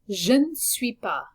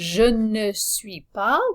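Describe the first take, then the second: First: The syllables are squeezed together and reduced. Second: Every syllable is said fully and separately. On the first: It sounds relaxed and natural. The speaker calls it right. "compress this a little bit ... that will sound a little bit more natural" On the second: It sounds overly careful and exact. The speaker calls it wrong. "which might sound overly careful to a native French speaker"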